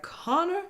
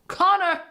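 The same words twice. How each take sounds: First: Connor's name sung out high and rising; swooning over Connor. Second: Connor yelled out high and loud; excited shout. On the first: Retold or imitated. Smitten viewer calling to the tall contestant, high and swooning. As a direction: sigh his name like a smitten fan. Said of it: "I was like". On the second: Real, not acted. Viewer cheering her favourite bachelor, loud and high. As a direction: cheer his name like a fan.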